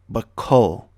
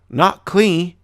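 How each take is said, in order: First: It has an uh sound and ends on L. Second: It ends with an ee sound after the L. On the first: The speaker calls it right. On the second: The speaker calls it wrong.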